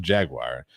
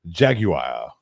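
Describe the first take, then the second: First: The word is said in a plain everyday way. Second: The word is said in an affected, fancy way. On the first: "regular Jaguar" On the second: "really pretentious"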